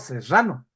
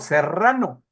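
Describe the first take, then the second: First: The R is dragged with a hissing sound. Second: The R is a crisp, standard trill. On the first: "yo arrastro las R's" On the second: "Yo no digo serrano"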